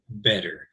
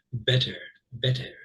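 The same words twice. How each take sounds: First: "better" with the T softened to a D; American "better", T tapped like a D; American flapped T. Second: "Better" with a crisp, clearly released T in the middle; English-style "Better", true T, not a D; distinct English T. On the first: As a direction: say "better" with a D-like middle sound, American style. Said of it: "sound much more like D's". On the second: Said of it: "that much more distinct, much, much more distinct T's". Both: Shown as a demonstration.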